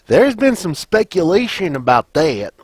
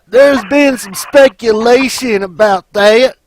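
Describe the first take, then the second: First: It is said in the speaker's natural voice. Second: It is said in a put-on imitation voice.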